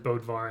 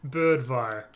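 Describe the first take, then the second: First: The first vowel is a plain o sound. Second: The first vowel is rounded with pursed lips. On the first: This is the common everyday pronunciation. "obviously everyone says Bodvar and it's fine" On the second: This is the technically correct Scandinavian pronunciation. "you purse your lips ... it's more like Birdvar is how it should sound"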